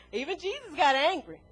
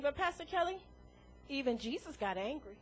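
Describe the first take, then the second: First: "got" weighed in a plain repeat; repeating the objection. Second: Softer, mumbled objection from the pews; imagined listener objection. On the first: Shown as a demonstration. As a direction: lean on "got" as you repeat it. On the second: Retold or imitated. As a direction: quietly voice the doubting churchgoer. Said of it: "you sitting out there saying".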